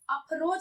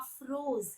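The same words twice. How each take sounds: First: The middle consonant is an aspirated ph sound. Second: The middle consonant is an f sound. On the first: The speaker calls it wrong. "अफरोज नहीं बोलेंगे" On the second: The speaker calls it right. "क्या बोलेंगे?"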